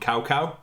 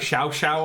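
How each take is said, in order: First: Each syllable begins with a k sound. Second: Each syllable begins with a sh sound. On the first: It is read as English spelling suggests. The speaker calls it wrong. "my brother and me just call him Cow Cow" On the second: It is a guess at the original pronunciation. The speaker calls it right. "I know it's probably like Shao Shao"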